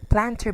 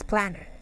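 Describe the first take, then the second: First: The t sound in the middle is pronounced. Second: The t sound in the middle is dropped.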